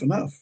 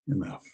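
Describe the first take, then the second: First: It is said lightly, as a quick stop signal. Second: It is said softly, with a satisfied sigh. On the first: That is as much food as I want. "When somebody's dishing out food, sometimes they'll say" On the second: I am full and satisfied. "When you're happy and content and full"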